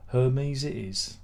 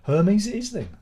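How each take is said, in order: First: Slow resigned repeat. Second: High, loud decisive announcement of Hermes; loud declaration. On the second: Streamer gives up on Royal Mail, loud high proclamation. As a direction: proclaim the switch to Hermes, higher and louder. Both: Real, not acted.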